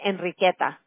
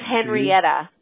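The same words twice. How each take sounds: First: The name is said with Spanish pronunciation. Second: The name is said with English pronunciation. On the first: "en español se pronuncia Henrietta" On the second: "en inglés es Henrietta"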